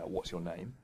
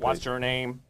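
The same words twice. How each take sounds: First: It is said in a natural human voice. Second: It is said in a put-on robot voice.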